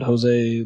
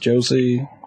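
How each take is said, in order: First: The name begins with an H sound. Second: The name begins with a J sound. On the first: The speaker calls it right. "It's supposed to be H" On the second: The speaker calls it wrong. "that I pronounced as Josie"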